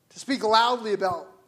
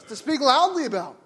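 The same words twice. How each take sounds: First: Said in the usual way. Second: "loudly" leaned on, louder and higher with a laugh; relishing, laughing emphasis. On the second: Shown as a demonstration. Preacher relishing his favorite definition, laughing emphasis. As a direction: savour "loudly" with a chuckle. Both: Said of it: "That's my favorite definition".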